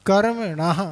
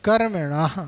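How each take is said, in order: No difference in how they are said.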